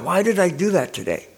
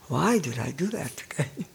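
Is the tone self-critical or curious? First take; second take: self-critical; curious. First: It sounds frustrated and self-critical. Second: It sounds curious and open.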